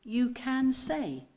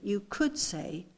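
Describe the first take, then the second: First: Very slow, emphatic "can"; stress on can. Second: Slow, weighted "could"; stress on could. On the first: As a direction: draw out "can" with assurance. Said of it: "Can you see the difference?". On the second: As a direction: lean on "could" as only hypothetical. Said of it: "I want you to get the inflection in my voice". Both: Shown as a demonstration.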